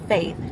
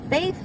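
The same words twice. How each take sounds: The two takes are said the same way.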